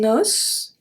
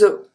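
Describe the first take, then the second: First: The final S is pronounced, with a closed O. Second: The final S is silent, with an open O. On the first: It refers to one bone. "here we pronounce the S at the end" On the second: It refers to several bones. "We don't pronounce the S at the end"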